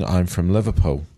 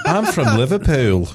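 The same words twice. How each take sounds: First: Said in the usual way. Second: Higher, louder mock Liverpool accent, laughing. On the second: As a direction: put on a playful Scouse accent. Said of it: "is what I heard in my head".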